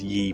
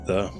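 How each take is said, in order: First: The word begins with a 'y' sound. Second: The word begins with a 'th' sound. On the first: The speaker calls it wrong. "people pronounce that as ye, but it's not" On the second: The speaker calls it right. "It is the"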